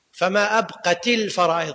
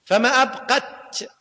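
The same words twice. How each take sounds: First: أبقت with a kasra on the final ت, linking into الفرائض; correct vowelling of أبقت. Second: أبقت ending on a bare, vowelless t; sukun on أبقت. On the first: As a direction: join أبقت to الفرائض with an "i" after the t. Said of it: "قلنا هو الصواب". (أبقت بكسر التاء موصولة بالفرائض) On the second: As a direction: say أبقت slowly, stopping on the silent-vowel ت. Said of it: "ساكنة". (أبقت بتاء ساكنة في آخرها) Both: Shown as a demonstration.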